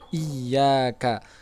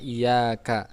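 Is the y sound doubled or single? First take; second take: doubled; single. First: The y sound is held and doubled. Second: The y sound is short and single. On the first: The speaker calls it right. "ya-nya bertasjid" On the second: The speaker calls it wrong. "Jangan bacanya iyyaka"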